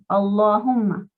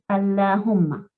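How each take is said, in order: First: The 'l' sound is heavy and strong. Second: The 'l' sound is light and soft. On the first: "había que decirlo con fuerza"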